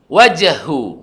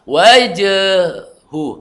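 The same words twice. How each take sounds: First: The final vowel is held short. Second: The final vowel is drawn out, held long. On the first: The speaker calls it right. "tidak dibaca panjang ya" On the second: The speaker calls it wrong. "enggak wajahu, enggak"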